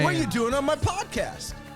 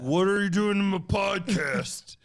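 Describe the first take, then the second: First: The voice is not especially deep. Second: The voice is pitched noticeably deeper.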